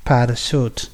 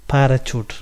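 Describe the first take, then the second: First: പാരച്യൂട്ട് said with sh, para-SHOOT; correct sh sound. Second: പാരച്യൂട്ട് said with ch, para-CHOOT; wrong ch sound. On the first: Teacher giving the right form, പാരച്യൂട്ട് with sh. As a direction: soften പാരച്യൂട്ട് to sh. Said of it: "ഷ് എന്നുള്ള സൗണ്ടാണ് അവിടെ pronounce ചെയ്യേണ്ടത്". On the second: Teacher showing the wrong way, പാരച്യൂട്ട് with ch. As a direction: give പാരച്യൂട്ട് a hard ch. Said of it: "അത് തെറ്റാണ്". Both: Shown as a demonstration.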